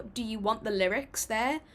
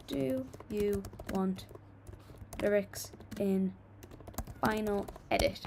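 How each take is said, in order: First: Said in the usual way. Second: Slow, word by word as she types; slow dictation of a poll question; dictating a poll. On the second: Real, not acted. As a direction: spell the poll question out slowly while typing. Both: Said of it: "I'm gonna do a poll for you guys".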